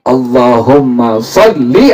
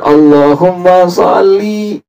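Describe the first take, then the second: First: The final vowel of salli is kept short. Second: The final vowel of salli is drawn out long. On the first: The speaker calls it right. "Jangan dipanjangin" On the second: The speaker calls it wrong.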